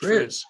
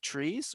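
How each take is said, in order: First: The vowel is a short i, like fizz. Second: The vowel is a long ee, like trees. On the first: "or is it Triz?" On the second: "Is it trees"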